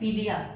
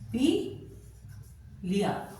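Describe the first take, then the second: First: It is said as one unbroken word. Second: A brief pause splits the word in two. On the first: It names the illness jaundice. "अगर हम विराम ना दें" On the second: It means drank up. "यहां पर क्षणिक विराम दिया"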